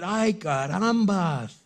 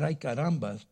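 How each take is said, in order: First: Drawn-out comic "Ay, carambas" sung out higher and louder; father seeing his daughter, hammed-up "Ay, carambas"; mock dismay. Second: Said in the usual way. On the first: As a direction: ham up "Ay, carambas" slowly. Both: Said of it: "it doesn't say he said".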